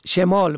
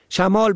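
First: شمال as "shemāl"; short "e" after the sh in شمال; kasra on first letter. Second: شمال as "shamāl"; fatha on first letter. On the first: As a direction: say شمال as she-māl. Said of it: "به کسر اول". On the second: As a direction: open "a" after the sh in شمال. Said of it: "به فتح اول". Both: Shown as a demonstration.

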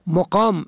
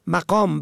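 First: مقام as "muqām"; rounded "u" after the m in مقام; damma on first letter. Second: مقام as "maqām"; fatha on first letter. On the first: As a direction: say مقام as mu-qām. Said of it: "به ضم اول". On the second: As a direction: open "a" after the m in مقام. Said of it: "به فتح اول". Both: Shown as a demonstration.

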